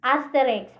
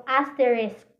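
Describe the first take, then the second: First: Asterisk said as "asteriks"; swapped end consonants. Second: Said in the usual way. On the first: Shown as a demonstration. Teacher showing students a sound swap, Asterisk as "asteriks". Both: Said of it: "mahimong asterisk".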